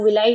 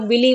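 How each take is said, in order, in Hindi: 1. शब्द 'eye' ध्वनि से खत्म होता है। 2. शब्द 'ee' ध्वनि से खत्म होता है। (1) "कई लोग विलाई बोलते हैं" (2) "कई लोग विली बोलते हैं"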